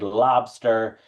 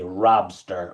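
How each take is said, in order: First: The word begins with an L sound. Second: The word begins with an R sound. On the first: The speaker calls it right. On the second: The speaker calls it wrong.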